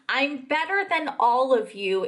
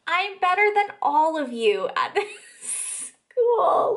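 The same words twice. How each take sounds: First: Slowly quoted boast; deliberate quote. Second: High, laughing mock quote; mocking disbelief. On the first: Retold or imitated. Quotes the line back deliberately. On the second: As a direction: quote it through incredulous laughter, pitch climbing. Repeats boast, laughing in disbelief.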